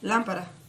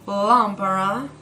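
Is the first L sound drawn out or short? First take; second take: short; drawn out. First: The first L sound is short and quick. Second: The first L sound is long and drawn out. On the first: The speaker calls it right. "I just say it like kind of short, like lámpara, fast" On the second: The speaker calls it wrong. "So it's not lámpara"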